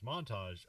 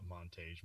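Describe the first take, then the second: First: "montage" ending in -tahzh; "montage" as mon-TAHZH, settled on after trying; corrected pronunciation. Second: "montage" ending in -tayzh, said low and quiet; "montage" as mon-TAYZH, tested under the breath; trying out pronunciation. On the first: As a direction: say "montage" with an AH in the last syllable. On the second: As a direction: say "montage" with an AY in the last syllable. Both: Shown as a demonstration. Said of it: "monta-, montage".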